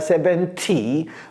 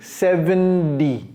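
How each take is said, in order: First: The T is pronounced as a clear, crisp T. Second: The T is softened into a quick D sound. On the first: The speaker calls it wrong. "c'est pas seventy" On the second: The speaker calls it right. "le T et le D sont fusionnés"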